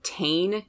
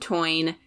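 First: The vowel sounds like 'ay' in 'day'. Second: The vowel sounds like 'oy' in 'boy'. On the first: The speaker calls it wrong. "It looks like the tain, T-A-I-N, is how it's spelled" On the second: The speaker calls it right. "but it's the toine"

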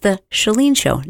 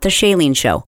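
First: The name starts with a 'shah' sound. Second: The name starts with a different vowel sound. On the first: The speaker calls it right. "My name is pronounced Shah, as in shut the door" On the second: The speaker calls it wrong. "not the Shalene Show"

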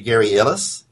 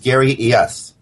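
First: The surname is said like 'ih-litz'. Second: The surname is said like 'ee-esh'. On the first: The speaker calls it wrong. "Because nobody can pronounce it properly, he responds to" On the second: The speaker calls it right. "But the correct pronunciation is"

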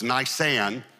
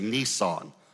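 First: It does not sound like the car brand. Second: It sounds like the car brand Nissan. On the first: The speaker calls it right. "So it's Nisan" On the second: The speaker calls it wrong. "Most people incorrectly pronounce it. That's a car you drive"

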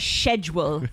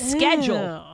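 First: Schedule is said with a British pronunciation. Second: Schedule is said with an American pronunciation. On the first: This is how others say it. The speaker calls it wrong. "you know how they always say schedule? let me check my schedule" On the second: This is how the speaker says it. The speaker calls it right. "It's schedule"

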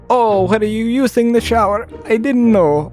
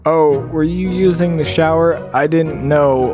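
First: It is said in an Italian-sounding accent. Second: It is said in a plain, unaccented voice.

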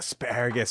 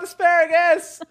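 First: It is said with eager, pleased excitement. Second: It is said with panicked, urgent alarm. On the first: He is enjoying it. "It's either he's so turned on, he's like, yeah" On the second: He wants it to stop. "Or he's like, oh no, stop"

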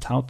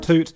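First: The vowel rhymes with out. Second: The vowel rhymes with boot. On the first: The speaker calls it wrong. "You're not like a ticket tout" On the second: The speaker calls it right. "It's toot, isn't it?"

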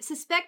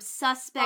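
First: The word is said the way the verb is. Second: The word is said the way the adjective is. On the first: It names the action of suspecting. "Suspect is a verb" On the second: It describes something as questionable. "Is an adjective"

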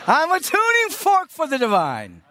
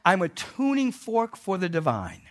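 First: It is said louder with more energy. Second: It is said at a calm, ordinary energy.

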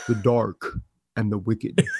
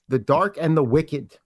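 First: It is said in a dramatic movie-trailer voice. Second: It is said in an ordinary speaking voice.

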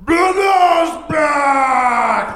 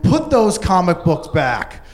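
First: It is said in a gruff Ludo-like voice. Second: It is said in a plain voice.

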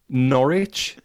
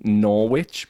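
First: The name is said the British way. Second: The name is said the American way. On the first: The speaker calls it right. "Norwich is a city rather than Norwich" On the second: The speaker calls it wrong. "rather than Norwich"

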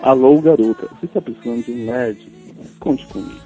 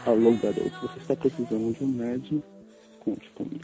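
First: It is said loudly in a sexy voice. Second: It is said quietly in a sexy voice.

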